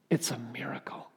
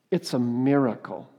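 First: It's a miracle whispered, softer, unvoiced; hushed whispered "It's a miracle". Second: Said in the usual way. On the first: Shown as a demonstration. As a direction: breathe "It's a miracle" in awe. Repeated line, now whispered.

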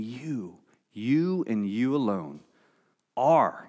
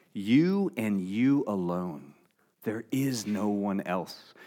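First: "You" set apart with a pause, then "you and you alone" with "you" stressed; emphatic you. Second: "You" leaned on each time, slow and soft; emphatic you. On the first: Jesus to his disciples, each "you" stressed. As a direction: linger on each "you" before "are". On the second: Preacher showing the emphatic Greek you, slow and soft. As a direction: stress both "you"s, slowly and quietly. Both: Shown as a demonstration. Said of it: "the you there is emphatic".

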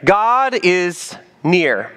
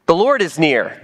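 First: God is near said very slowly, each word weighted; slow emphatic repeat. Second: Said in the usual way. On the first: Shown as a demonstration. Slowed repeat of the phrase.

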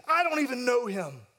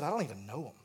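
First: Quick denial. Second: Lower, soft, wounded repeat; hurt echo. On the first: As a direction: snap the denial out defensively. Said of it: "Here he quickly says". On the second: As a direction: let the words sting quietly. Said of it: "One of his best friends has just said". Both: Retold or imitated.

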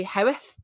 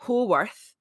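First: Howth said as one short syllable, like HOWTH; local pronunciation. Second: Haworth said as spelled, HA-worth; read as spelled. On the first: Telling her co-host how locals say Haworth, Howth said short. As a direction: Howth clipped the Yorkshire way. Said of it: "but I think you say". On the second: Correcting herself on the Brontë village name, Haworth said letter by letter. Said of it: "It's spelled". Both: Shown as a demonstration.

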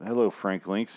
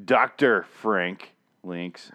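First: Said in the usual way. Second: Very slow, with the word "Doctor" stretched and hit hard; indignant correction. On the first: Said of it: "It's like when someone says". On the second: Retold or imitated. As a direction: drag out "Doctor" slowly and pointedly, as an indignant correction. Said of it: "and you're like".

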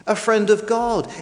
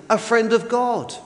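The two takes are said the same way.

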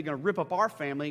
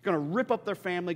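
First: Our hit harder, a touch faster; stress on our. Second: Said in the usual way. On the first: Shown as a demonstration. Preacher turning their family into our family, stressing our. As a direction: lean on the word our to make it personal.

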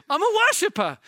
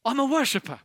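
First: Worshipper said higher and louder; rising preacher's cry; building emphatic repeat. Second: Said in the usual way. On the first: Shown as a demonstration. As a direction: proclaim it with full force. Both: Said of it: "Whether things are going great".

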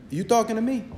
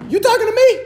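First: Muttered tough-guy repeat. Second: Higher, hammed-up "you talking to me?" as a joking God; mock tough-guy challenge. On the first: Pretend. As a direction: lower and softer, "You talking to me?" muttered under the breath. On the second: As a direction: play God as a movie tough guy, mocking. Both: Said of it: "And what does God say?".

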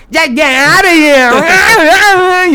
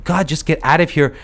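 First: High, loud, slow mocking echo of her; mocking mimicry. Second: Said in the usual way. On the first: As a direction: parrot her words back in a taunting voice. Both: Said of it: "he would, like, mimic her".

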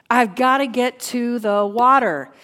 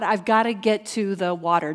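First: Louder, urgent declaration; forceful preacher's cry of longing; desperate insistence. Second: Said in the usual way. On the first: Acted. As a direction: drive it home like a desperate need.

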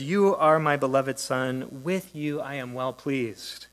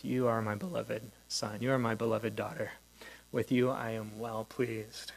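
First: Louder and slow, a solemn announcement from heaven; proclaimed declaration. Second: Intimate blessing. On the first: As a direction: proclaim each word slowly and fully. Quoting the Father's voice from Mark. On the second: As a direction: say it gently, as if to one person. Listener imagines hearing the voice personally. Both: Acted.

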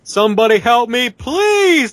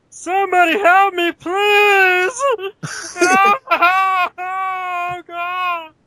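First: High, loud desperate plea for help; terrified horror victim. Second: Very high, crying cartoon voice; Barney voice. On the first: Acted. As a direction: beg for rescue, panicked. Lost, pleading for help. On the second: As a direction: wail it like a silly cartoon character. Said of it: "Do it as Barney".

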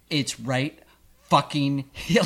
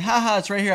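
First: Retold snap instead of laughing it off; irritated retort. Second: Light, high-pitched mock amusement; mock laughing. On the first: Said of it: "and instead of, like, laughing". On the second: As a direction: laugh it off, higher and louder. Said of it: "like, laughing and going".

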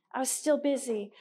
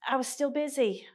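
First: "still" stressed, falling tune. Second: "I" stressed, falling tune. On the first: Speaker to women's group, stressing still. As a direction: lean on "still" in "I was still busy". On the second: Speaker to women's group, stressing I. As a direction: lean on "I" in "I was still busy". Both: Shown as a demonstration.

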